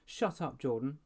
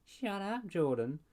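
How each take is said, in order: First: Mild angry cry. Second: High mocking echo of her; mocking repeat. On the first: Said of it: "Ashley cried". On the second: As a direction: parrot her back to tease. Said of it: "Jordan repeated". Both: A narrator's reading.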